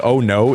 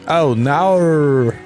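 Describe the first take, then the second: First: The word no is said plainly with no drawl. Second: The word no is drawn out like naur. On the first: The speaker calls it right. "If they would say oh no" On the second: The speaker calls it wrong. "It's not how you say that word"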